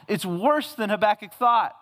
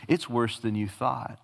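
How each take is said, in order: First: Higher and stressed, "worse" punched hard; emphatic point. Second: A hint of a grave divine answer; lightly voiced God. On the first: Real, not acted. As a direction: lean on "worse" as the sermon's pivot. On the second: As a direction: lower and softer, "it's" leaned on gently. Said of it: "In fact, he says".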